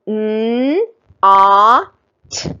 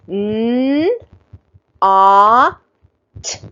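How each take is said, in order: First: The three sounds are said a little faster. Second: The three sounds are said slowly and separately. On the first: "A little faster this time" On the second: "we sound out things slowly at first"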